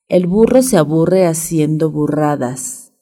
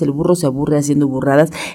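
First: The phrase is said slowly. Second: The phrase is said quickly. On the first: "despacio es facilito" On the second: "vamos a ver qué tal más rápido"

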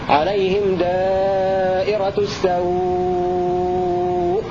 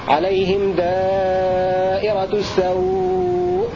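First: The final vowel is held for six counts. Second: The final vowel is held for four counts. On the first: "ست حركات" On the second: "أربع حركات"

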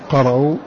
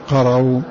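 Both takes have the same delivery.

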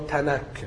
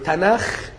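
First: The word ends with a plain k sound. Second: The word ends with a raspy kh sound. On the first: The speaker calls it wrong. "الاجانب ما بيعرفوش ينطقوا الخاء فبينطقوا كاف" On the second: The speaker calls it right. "اليهود بينطقوه تناخ"

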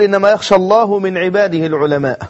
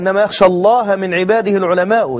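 First: Allah ends in 'u'; al-ulama ends in 'a'. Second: Allah ends in 'a'; al-ulama ends in 'u'. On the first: God fears the scholars. The speaker calls it wrong. "لكن هو تعمد أن يقول" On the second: Only the scholars truly fear God. The speaker calls it right. "والقراءة"

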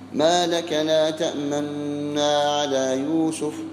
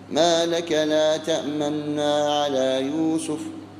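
First: The n is held with an added nasal hum. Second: The n is held without an added nasal hum.

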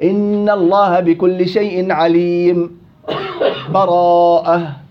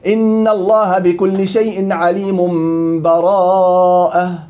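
First: A brief silent break without breath precedes the last word. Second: The words run straight into the last word, no break. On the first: "الوجه الثالث اللي قال عنه أبو صهيب اللي هو السكت" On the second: "وصل الجميع الأسهل"

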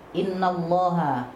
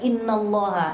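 First: The vowel of 'inna' is drawn out long. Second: The vowel of 'inna' is kept short. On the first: Indeed we are God. The speaker calls it wrong. "Kalau dibaca inna Allah, sesungguhnya kami Allah, merubah itu" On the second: Indeed God. The speaker calls it right. "padahal cukup dibaca"

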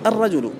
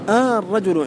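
First: The opening vowel is short. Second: The opening vowel is stretched long. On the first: It is just the word, not a question. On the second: It asks a question about the man.

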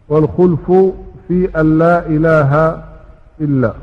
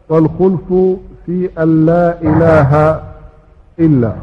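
No difference in how they are said.

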